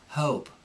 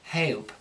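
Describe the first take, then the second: First: The O vowel starts with an uh sound. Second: The vowel sounds like a prim E-A-H glide. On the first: The speaker calls it right. "with the Cockney, what will happen is there'll be like an uh" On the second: The speaker calls it wrong. "they go a little bit too proper with it"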